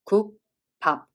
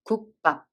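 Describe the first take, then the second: First: The syllables are separated and the b is plain. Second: The syllables are joined and the b is tensed. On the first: "no one makes pause to pronounce it perfectly" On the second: "when you read it a bit faster"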